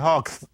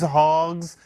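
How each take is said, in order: First: The word ends with an s sound. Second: The word ends with a z sound.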